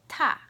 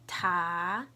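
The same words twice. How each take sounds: First: It is said with the fourth tone. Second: It is said with the second tone.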